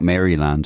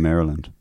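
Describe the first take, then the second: First: It is said the Irish local way. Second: It is said the American way. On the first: It names the estate back home. The speaker calls it wrong. "as I used to think it was called" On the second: It names the US state. The speaker calls it right. "They shoot that in Maryland"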